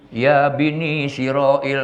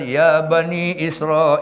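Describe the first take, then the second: First: It sounds like 'ya Bini Siroil'. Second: It sounds like 'ya Bani Israel'. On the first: The speaker calls it wrong. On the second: The speaker calls it right.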